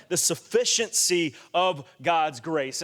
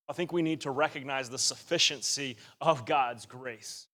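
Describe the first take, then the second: First: Repeated at full voice with weight on "sufficiency"; preacher driving the phrase home; emphatic repeat. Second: Said low and quiet, lines dropped; hushed, inward delivery of the key phrase; soft first statement. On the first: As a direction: restate "The sufficiency of God's grace" firmly so it lands. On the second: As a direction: quietly lay down "the sufficiency of God's grace". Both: Shown as a demonstration. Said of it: "You hear that?".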